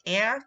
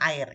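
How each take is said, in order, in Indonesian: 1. Kata itu diucapkan dengan cara Inggris. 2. Kata itu diucapkan dengan cara Indonesia. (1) "dibacanya air" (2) "bukan air ya"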